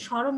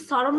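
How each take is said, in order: First: স্মরণ with "sh", "sho-ron"; palatal sh start. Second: স্মরণ with a dental "s", "so-ron"; hissed s start. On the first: Teacher answering the student, স্মরণ said "shoron". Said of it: "তুমি তো স্মরণ উচ্চারণ করো". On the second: Teacher questioning a student, স্মরণ said "soron". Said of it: "তুমি কি স্মরণ উচ্চারণ করো". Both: Shown as a demonstration.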